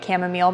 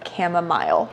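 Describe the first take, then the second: First: The word is said in the everyday pronunciation. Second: The word is said in the looked-up pronunciation. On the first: The speaker calls it wrong. "I've been calling it chamomile my entire life" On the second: The speaker calls it right. "I looked it up and the pronunciation is chamomile"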